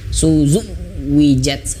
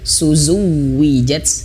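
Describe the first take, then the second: First: The 'w' is over-pressed and the sound breaks off. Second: The doubled 'w' is pressed and flows smoothly. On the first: The speaker calls it wrong. "Jangan terputus suaranya maksud saya" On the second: The speaker calls it right. "huruf wawunya perhatikan harus ditekan karena dia tasdid"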